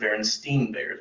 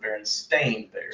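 First: The name's middle part sounds like 'stine'. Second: The name's middle part sounds like 'stain'. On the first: This is how most people remember the name. The speaker calls it wrong. "if you ask most people, they will say it's the Berenstain Bears" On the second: This is the name's actual form. The speaker calls it right. "But it's the Berenstain Bears"

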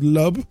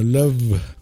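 First: The consonant is a plain B sound. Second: The consonant is a buzzing V sound. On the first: The speaker calls it wrong. "no es love" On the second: The speaker calls it right. "sino love... una mezcla entre F y B"

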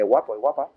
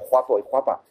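First: The g is a standard hard g. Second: The g sounds like a throaty j (geada).

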